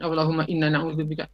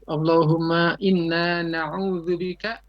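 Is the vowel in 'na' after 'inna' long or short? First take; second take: short; long. First: The 'na' vowel after 'inna' is short. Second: The 'na' vowel after 'inna' is long. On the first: The speaker calls it wrong. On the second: The speaker calls it right. "Jadi nanya harus panjang. Allahumma inna agak panjang dua harokat"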